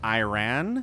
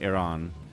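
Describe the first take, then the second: First: The ending rhymes with Japan. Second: The ending does not rhyme with Japan. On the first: The speaker calls it wrong. "if you think Japan rhymes with Iran because you pronounce Iran Iran" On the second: The speaker calls it right. "But you actually pronounce Iran Iran"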